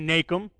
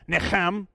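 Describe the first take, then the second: First: The word is said with a plain American accent. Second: The word is said with a Hebrew-like accent. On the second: "If I was Karen, it would be"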